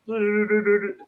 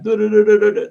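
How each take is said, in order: First: High little du-du-du echoed back in fun; mimicked pixie humming. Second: High, loud playful pixie trill du-du-du; pixie humming. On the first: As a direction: copy the pixie's trill right back at him. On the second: Retold or imitated. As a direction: chirp it like a mischievous little pixie teasing. Pixie going round humans.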